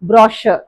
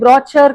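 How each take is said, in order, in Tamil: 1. நடுவுல இருக்கிற consonant 'sh' sound தான். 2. நடுவுல இருக்கிற consonant 'ch' sound தான்.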